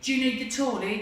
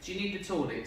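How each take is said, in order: First: It is shouted in a harsh tone. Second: It is said gently in a kind tone.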